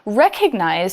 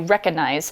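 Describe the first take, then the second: First: The word is said slowly with every syllable full. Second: The word is said quickly with syllables reduced.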